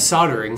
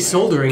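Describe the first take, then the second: First: It is said with the US pronunciation. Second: It is said with the British pronunciation. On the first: The speaker calls it right. "In U S English, it's soldering" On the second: The speaker calls it wrong. "If you say soldering, it's wrong"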